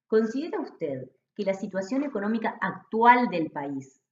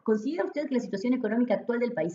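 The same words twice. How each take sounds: First: It is read slowly, with pauses. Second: It is read quickly, without pauses. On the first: The respondent can follow the question. The speaker calls it right. "la forma adecuada es" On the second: The respondent does not understand the question. The speaker calls it wrong. "del modo en el que habitualmente hablo"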